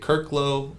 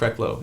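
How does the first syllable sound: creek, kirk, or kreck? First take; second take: kirk; kreck. First: The first syllable sounds like kirk. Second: The first syllable sounds like kreck. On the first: Other people say the name this way. The speaker calls it wrong. "I'll get Kirklow" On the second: This is how the name is really said. The speaker calls it right. "But it's Krecklow"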